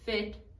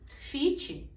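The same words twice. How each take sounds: First: The vowel is an 'eh'-like sound. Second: The vowel is a clear 'ee' sound. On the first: The speaker calls it right. "essas palavras têm o som de E" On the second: The speaker calls it wrong. "tudo isso é falado com som de I"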